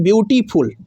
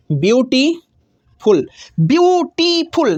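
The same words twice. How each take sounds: First: Said in the usual way. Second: ब्यूटीफुल stretched very slowly, each syllable apart; drawn-out syllables. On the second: Shown as a demonstration. Teacher slowly sounds out each syllable for students. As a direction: spell out ब्यूटीफुल slowly, beat by beat, as byu-ti-ful. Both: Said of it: "कितना बार रुकते हैं आप".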